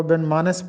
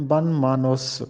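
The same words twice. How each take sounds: First: بن مانس said as "ban-maans", no vowel between n and s; the careless everyday بن مانس; بن مانس clipped to two short syllables, "maans"; common wrong pronunciation. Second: بن مانوس said as "ban-maa-noos", full "oo" before the s; بن مانوس with a clear long "oo" in the last syllable; correct pronunciation. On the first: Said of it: "جو کہ غلط ہے". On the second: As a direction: carefully give بن مانوس its "noos" ending. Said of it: "درست تلفظ ہے". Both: Shown as a demonstration.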